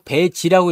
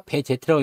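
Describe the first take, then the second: First: 배지, ending on a short "ji" instead of "jeteu"; Z read as "ji". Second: 배제트, ending in two syllables "je-teu"; Z read as "jeteu". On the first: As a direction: say 배지 with a final "ji". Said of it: "배지라고 읽어야 됩니까". (배지, Z를 '지'로 읽는 발음) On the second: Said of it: "제트라고 읽으면 안 된다면서요". (배제트, Z를 '제트'로 읽는 발음) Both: Shown as a demonstration.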